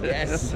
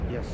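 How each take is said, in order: First: It is said with much more enthusiasm. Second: It is said calmly, with little enthusiasm.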